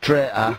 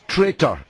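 First: The word is said in a Yorkshire accent. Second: The word is said in a standard English accent. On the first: The speaker calls it wrong. "not traitor" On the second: The speaker calls it right. "I think the word is traitor"

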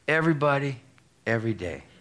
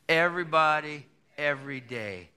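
First: It is said plainly, without extra force. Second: It is said forcefully, with strong conviction.

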